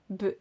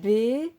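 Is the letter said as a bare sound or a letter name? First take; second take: bare sound; letter name. First: Only the bare consonant sound is said. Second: The letter is said as its full name. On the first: The speaker calls it right. "le son des lettres" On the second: The speaker calls it wrong. "s'il connaît uniquement le nom de la lettre"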